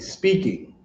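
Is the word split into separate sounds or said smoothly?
smooth. The word flows smoothly as one sound. The speaker calls it right. "You're gonna say speaking"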